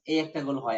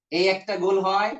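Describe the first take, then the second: First: Said in the usual way. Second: Slower, stress on গোল with a rising end; slow pointing stress. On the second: Shown as a demonstration. Teacher pointing at each rounded vowel, rising.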